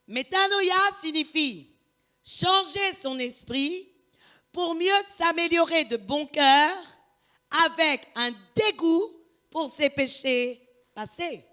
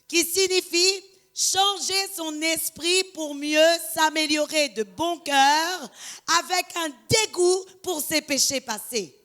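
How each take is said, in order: First: It is said slowly. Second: It is said at a normal speed.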